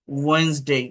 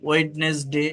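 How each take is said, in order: First: "ওয়েডনেসডে" as two-syllable wenz-dei, silent d; correct Wednesday. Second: "ওয়েডনেসডে" spelled out as wed-nes-de; wrong Wednesday. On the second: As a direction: sound every letter of "ওয়েডনেসডে". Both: Shown as a demonstration. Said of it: "ওয়েডনেসডে এরকম না".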